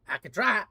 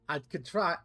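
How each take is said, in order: First: "try" pushed louder with a rise; a second, more emphatic "I could try"; louder insistence. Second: Said in the usual way. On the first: Shown as a demonstration. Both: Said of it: "I could fucking try".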